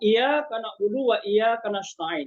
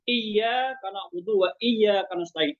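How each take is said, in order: First: The y sound is short and single. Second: The y sound is held and doubled. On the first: Only you, O sun, we worship and ask for help. The speaker calls it wrong. "dia tidak membaca tasdidnya" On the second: Only you, O God, we worship and ask for help. The speaker calls it right. "Ada tasdidnya sedikit saja. Harus kita tekankan di sana"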